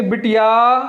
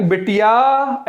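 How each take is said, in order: First: बिटिया called with the final आ held; calling out. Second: Slow drawn-out call, बिटिया with the final आ stretched. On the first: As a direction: call to the daughter outside, drawing out the end. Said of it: "ऐसे क्या बुलाएंगे?". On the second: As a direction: call बिटिया from inside the house, stretching the end. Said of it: "ऐसे बुलाएंगे". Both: Shown as a demonstration.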